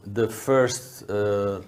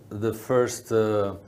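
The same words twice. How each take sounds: The two takes are said the same way.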